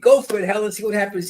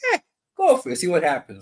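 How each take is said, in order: First: It sounds warm and encouraging. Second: It sounds skeptical and smirking.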